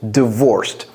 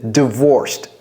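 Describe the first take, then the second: The two takes are said the same way.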